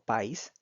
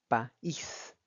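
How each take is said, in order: First: The two vowels merge into one syllable. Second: The two vowels are split into two syllables. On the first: The speaker calls it wrong. "indicaría que tuviéramos que pronunciarlo como país" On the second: The speaker calls it right. "al ser un hiato se pronuncia país en dos sílabas distintas"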